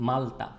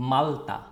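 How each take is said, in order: Both takes have the same delivery.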